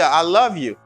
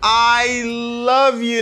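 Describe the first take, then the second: First: It is said quickly, without weighing each word. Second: It is said slowly, weighing each word. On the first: The speaker calls it right. "parler rapide ou pas peser" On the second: The speaker calls it wrong.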